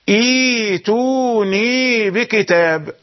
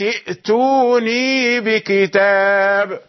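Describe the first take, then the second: First: A long i vowel replaces the glottal stop. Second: A glottal stop is heard before the t. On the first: The reading starts at this word. "فإذا بدأت بالأولى تنطقها وتسهل الثانية تقول" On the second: The word is joined to the words before it. "كانت تنطق"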